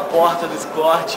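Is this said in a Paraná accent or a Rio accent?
Rio. It is said in a Rio accent. "Aqui eu já tô falando"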